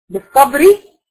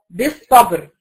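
First: بالصبري with a kasra on the final راء, said higher and louder; final r voiced. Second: بالصبر ending on a still, unvowelled راء; stopped on final r. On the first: Teacher contrasting بالصبري with the stopped form. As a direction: let the راء in بالصبري carry its vowel. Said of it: "بالصبري". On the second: Teacher showing the pausal form of بالصبر. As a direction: close بالصبر with the راء held silent. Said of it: "انا وقفت عليها سكنت الراء". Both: Shown as a demonstration.

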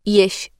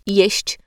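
First: "jeś" without the final ć; clipped ending. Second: "jeść" with both ś and ć sounded; full ending. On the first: Diction coach demonstrating a cut ending, final ć dropped in "jeś". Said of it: "Ucinanie końcówek wyrazów to norma". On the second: Diction coach showing the careful form, final ć pronounced in "jeść". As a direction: finish "jeść" on an audible ć. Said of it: "jeś zamiast jeść". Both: Shown as a demonstration.

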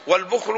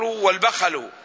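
First: والبخل said wal-bukhlu, u then no vowel on the kh; والبخل as bukh-lu after the article; first variant vowelling. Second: والبخل said wal-bakhalu, a after both b and kh; والبخل as ba-kha-lu after the article; second variant vowelling. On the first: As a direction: close the first syllable of والبخل on kh. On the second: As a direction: open both syllables of والبخل with short a. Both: Shown as a demonstration. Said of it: "لغتان في الكلمة".

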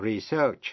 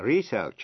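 First: Re-SEARCH, second syllable stressed; verb-style reSEARCH. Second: RE-search, first syllable stressed; noun-style REsearch. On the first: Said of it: "nhấn mạnh vần nhì". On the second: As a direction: research with the weight on RE. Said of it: "nhấn mạnh vần đầu". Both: Shown as a demonstration.

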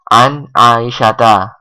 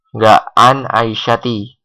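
First: "An Aisyata" said slowly, ending on a clear a; right pronunciation. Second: "an Aisyati" said slowly, ending on an i; wrong form. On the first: Teacher shows students the right ending, slow and careful. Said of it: "Ya, an Aisyata". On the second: Teacher warns students off the wrong ending, slowly. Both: Shown as a demonstration.

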